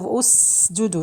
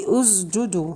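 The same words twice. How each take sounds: First: The consonant is a voiceless s sound. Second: The consonant is a voiced z sound. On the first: The speaker calls it right. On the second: The speaker calls it wrong.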